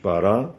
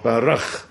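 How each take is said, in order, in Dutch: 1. Het woord eindigt op een open klinker. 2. Het woord eindigt op een harde keelklank. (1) "die hoor je nou ook niet. Hè? Die H aan het eind" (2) "Dan wordt het ineens een harde"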